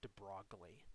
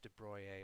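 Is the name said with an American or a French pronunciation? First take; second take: American; French. First: The name is said with an American pronunciation. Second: The name is said with a French pronunciation. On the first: "if you are American" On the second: "I believe the French is de Broglie"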